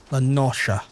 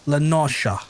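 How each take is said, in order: Both takes have the same delivery.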